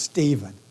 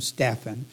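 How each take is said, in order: First: The middle consonant sounds like a v. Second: The middle consonant sounds like an f. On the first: The speaker calls it wrong. "Dave does not like this name to be pronounced Stephen" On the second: The speaker calls it right. "There is no V in here. ... But we will pronounce him Stephan"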